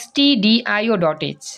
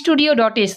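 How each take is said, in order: First: It is not said like the word studio. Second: It is said like the word studio. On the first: The speaker calls it right. "এমনি উচ্চারণ করবা" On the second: The speaker calls it wrong. "আসলে এটা ভুল, স্টুডিও.h না"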